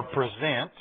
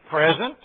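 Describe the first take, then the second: First: "present" said as the verb, stress on the second syllable, pri-ZENT. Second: "present" said as the noun, stress on the first syllable, PREZ-ent. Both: Shown as a demonstration. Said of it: "I heard several things".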